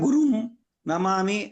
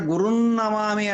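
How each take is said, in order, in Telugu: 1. రెండు పదాలు విడివిడిగా, కలిపే ధ్వని లేకుండా పలుకుతారు. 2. రెండు పదాలు 'n' ధ్వనితో కలిసి పలుకుతారు. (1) "విడిగా ... కాదు అది" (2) "సరైనటువంటి విధానం"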